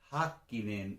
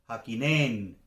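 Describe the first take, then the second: First: The stress is on the first syllable. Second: The stress is on a later syllable. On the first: The speaker calls it right. "es Häkkinen" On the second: The speaker calls it wrong. "no es Häkkinen, como diríamos en español"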